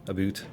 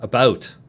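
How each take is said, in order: First: "boot" with a long oo; mock Canadian about. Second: Said in the usual way. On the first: Shown as a demonstration. Streamer comparing own vowels, "boot" with oo. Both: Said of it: "I usually only say a boot when".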